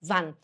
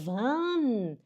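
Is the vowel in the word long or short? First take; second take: short; long. First: The vowel is said short and quick. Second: The vowel is drawn out long. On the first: The speaker calls it right. "e sim wann" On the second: The speaker calls it wrong. "Você não pode falar wann"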